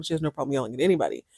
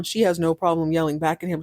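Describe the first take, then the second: First: Quick, softer throwaway rattle; fast aside. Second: Said in the usual way. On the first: Real, not acted. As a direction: rush it out under the breath like an afterthought.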